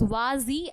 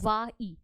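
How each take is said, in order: First: A z sound links the two words. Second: No z sound links the two words. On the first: The speaker calls it right. "It is vazi" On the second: The speaker calls it wrong. "not va e"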